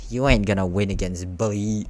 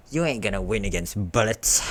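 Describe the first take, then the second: First: "Bully" read in place of "Bullets"; misread word. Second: "Bullets" read with its final "ts"; corrected reading. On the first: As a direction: misread the last word as "Bully", cutting off its ending. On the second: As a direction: reread it, landing clearly on "Bullets". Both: A narrator's reading. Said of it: "I misread".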